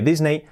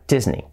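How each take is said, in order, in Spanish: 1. Se dice con sonidos de estilo español. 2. Se dice con sonidos de estilo inglés. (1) "nosotros decimos Disney porque se escribe Disney" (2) "Por lo tanto, sería Disney"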